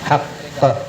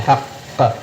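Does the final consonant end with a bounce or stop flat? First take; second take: bounce; bounce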